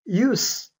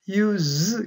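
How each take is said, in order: First: The final consonant is voiceless, like an s. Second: The final consonant is voiced, like a z. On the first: It is used as a noun. "명사일 때는 무성음 use" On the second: It is used as a verb. "동사로 사용하면 use 이렇게 발음됩니다 ... 앞에는 성대가 떨려요"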